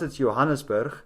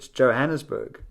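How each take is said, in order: First: The name is said with Afrikaans pronunciation. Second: The name is said with English pronunciation. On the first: "In Afrikaans"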